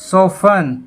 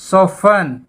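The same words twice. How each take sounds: Both takes have the same delivery.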